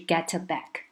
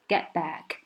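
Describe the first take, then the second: First: The t in get is clearly released. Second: The t in get is very weak. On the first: The speaker calls it wrong. "而不是get back" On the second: The speaker calls it right. "这个t 也是很弱很弱的get back"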